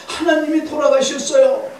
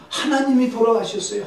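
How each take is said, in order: First: Very high, loud retold outcry; acted insistent cry. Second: Higher-pitched retold lament; acted grave announcement. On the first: Wife insisting to Luther, high loud acted outcry. Wife repeats news more forcefully. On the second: Wife telling Luther shocking news, high acted lament. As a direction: break the dreadful news, voice raised in pitch.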